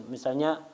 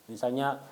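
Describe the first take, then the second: The two takes are said the same way.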